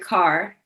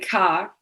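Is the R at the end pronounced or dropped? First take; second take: pronounced; dropped. First: The final R sound is pronounced. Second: The final R sound is dropped.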